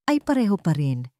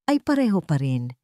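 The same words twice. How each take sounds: The two takes are said the same way.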